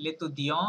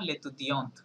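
First: লেতুদিয়ঁ left open on the nasal vowel; silent final T. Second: লেতুদিয়ন্ট closed with an audible T; sounded final T. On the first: Teacher contrasts masculine with feminine, silent T. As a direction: say লেতুদিয়ঁ with no T at the end. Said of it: "এটা টিটা silent থাকছে". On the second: Teacher contrasts feminine with masculine, sounded T. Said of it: "টি পর্যন্ত উচ্চারণ করতে হবে". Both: Shown as a demonstration.

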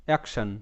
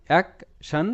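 First: Said in the usual way. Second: action broken into "ak", pause, "shan"; split syllables. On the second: Shown as a demonstration. Teacher sounds out the word for learners, action split "ak - shan". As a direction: sound out action in two separate parts.

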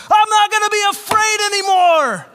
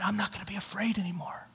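First: High, bellowed declaration; all-out yell at top volume; full-out shout. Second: Quick, hushed whisper; barely voiced, reluctant declaration; timid whisper. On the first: Retold or imitated. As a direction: yell it like you mean it, to get it over with. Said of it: "say it like you mean it". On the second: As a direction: whisper it half-heartedly so nobody wakes. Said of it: "you say it like you mean it".

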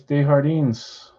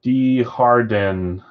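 First: Desjardins said slowly as "day-har-DEENS"; Spanish-style pronunciation. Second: Desjardins slowly Americanized as "dee-har-den"; American accent. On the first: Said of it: "jardín is just Spanish for garden". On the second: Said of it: "like, an American accent?". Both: Shown as a demonstration.

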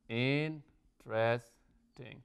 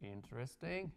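First: "Interesting" very slowly in three separate beats; syllable by syllable. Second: Said in the usual way. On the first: Shown as a demonstration. Teacher checking there are three syllables, "Interesting" split in three. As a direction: break "Interesting" into in-tres-ting, pausing between. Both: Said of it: "Tenemos tres".

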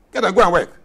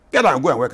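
First: Higher and louder, punching "go"; forceful shout. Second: "Get" said a bit louder, rising; emphatic command. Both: Real, not acted.

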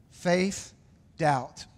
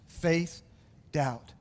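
No difference in how they are said.

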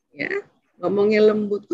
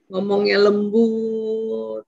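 First: Said in the usual way. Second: "Ngomongnya lembut" drawn out slowly and gently; gentle speaking demo. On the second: Shown as a demonstration. Speaker shows parents how to talk to a child, gently and slowly.

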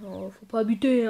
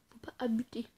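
First: Said in the usual way. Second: Softer whispered echo; whispered repeat. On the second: Shown as a demonstration. Gamer repeats the warning to himself, whispering. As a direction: repeat it under your breath.

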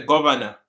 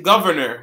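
First: Governor said as gova-na, no r sounds; Patois governor. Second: Governor with a full English r sound; English-style governor. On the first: Teacher showing the Jamaican way, gova-na governor. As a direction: drop the r's: governor as gova-na. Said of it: "We say governor". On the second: Teacher showing the wrong English way, saying governor. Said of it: "we don't pronounce it governor". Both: Shown as a demonstration.

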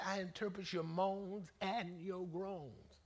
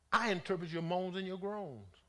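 First: Slow, drawn-out God's words. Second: Said in the usual way. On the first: Retold or imitated. Preacher repeating God's promise slowly for the congregation, drawn out. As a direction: stretch each word out slowly. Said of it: "He said". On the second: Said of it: "had the audacity to say".

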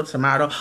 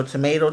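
First: Tomato with the middle vowel as in father; tomato, to-MAH-to. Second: Tomato with the middle vowel as in may. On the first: To her viewers, tomato the to-mah-to way. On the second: To her viewers, tomato the to-may-to way. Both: Shown as a demonstration. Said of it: "You know, tomato, tomato".

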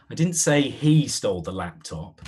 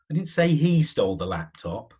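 First: He lifted and leaned on; stress on he. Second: Only hint with say, I never said it outright; stress on say. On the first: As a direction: point the finger with he, not the others. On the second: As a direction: say rising, held and weighted. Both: Shown as a demonstration. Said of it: "Or how about".

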